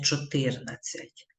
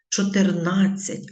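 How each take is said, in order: First: "чотирнадцять" stressed cho-TYR-nad-tsiat; wrong stress on TYR. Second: "Чотирнадцять" slowly, stressed cho-tyr-NAD-tsiat; loud, slow stress on the third syllable of "Чотирнадцять"; correct stress on NAD. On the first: Teacher citing the mistake to avoid, TYR stressed in "чотирнадцять". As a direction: lower voice, second syllable stressed in "чотирнадцять". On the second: Teacher showing pupils the correct form, NAD stressed in "Чотирнадцять". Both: Shown as a demonstration. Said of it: "а не чотирнадцять".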